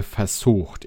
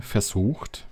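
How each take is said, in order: First: Said in the usual way. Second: "versucht" drawn out slowly for emphasis; deliberate, slowed emphasis on "versucht"; stress on versucht. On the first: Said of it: "ich betone versucht". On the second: Real, not acted. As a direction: lean on "versucht", stretching the word. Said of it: "ich betone".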